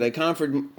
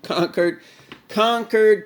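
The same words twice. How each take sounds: First: Said in the usual way. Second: Conquered, conquered, rising higher and louder each time; mock triumphant building. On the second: Shown as a demonstration. Vlogger hams up beating his tool list, building to triumph.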